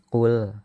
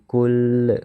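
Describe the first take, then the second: First: It begins with a deep back q sound. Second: It begins with a plain k sound. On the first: The speaker calls it right. "Ini harus jelas qul" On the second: The speaker calls it wrong. "jangan sampai kul"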